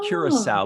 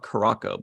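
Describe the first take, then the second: First: The name is said in the speaker's usual way. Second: The name is said in an alternative way. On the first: This is how the speaker normally says it. "I always call it" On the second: This is how some other people say it. "Some people call it Caraco"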